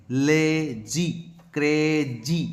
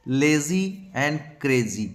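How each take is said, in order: First: "lazy", "crazy" split in two, long "ay" then "zee"; stretched vowels. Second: Said in the usual way. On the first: Shown as a demonstration. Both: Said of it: "आई की मात्रा है".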